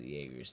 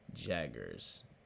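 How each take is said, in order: First: The name is said like 'Jaeger'. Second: The name is said like 'Jagger'. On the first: The speaker calls it wrong. "I've been pronouncing it like Jaeger" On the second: The speaker calls it right.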